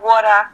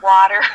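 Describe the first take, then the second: First: It is said in a New York accent. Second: It is said in an El Paso accent. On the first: "So when I'm in New York, everything is more voidical. I'm speaking in a real, you know, like" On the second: "In El Paso, it's liar and water"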